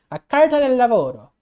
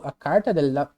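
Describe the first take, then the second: First: "A Carta del Lavoro" in a louder, hammed-up Italian accent. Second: Said in the usual way. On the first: Shown as a demonstration. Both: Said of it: "deixa eu falar com o sotaque italiano".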